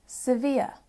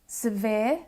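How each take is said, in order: First: "severe" as "si-vee-uh"; other pronunciation. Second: "Severe" ending in one long vowel; no glide at the end of "Severe"; speaker's own accent. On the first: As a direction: end "severe" on a two-part glide. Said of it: "may also sound like". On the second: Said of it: "may also sound like severe". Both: Shown as a demonstration.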